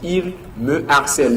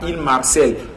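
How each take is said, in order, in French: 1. Le mot 'me' est prononcé en entier avant 'harcèle'. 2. Le mot 'me' s'élide en 'm'harcèle'. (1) "on dit il me harcèle" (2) "On ne dit pas il marcelle"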